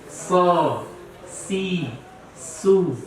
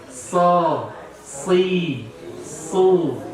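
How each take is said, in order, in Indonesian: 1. Konsonannya tipis, seperti huruf s biasa. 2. Konsonannya tebal, dengan pangkal lidah terangkat. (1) "itu menjadi huruf sin" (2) "Tetap tebal ya"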